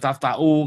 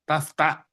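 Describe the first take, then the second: First: The word ends with a long 'oo' vowel. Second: The word ends without a final 'oo' vowel. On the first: The speaker calls it wrong. "nggak boleh taftau" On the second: The speaker calls it right. "kalau wakoh tafta"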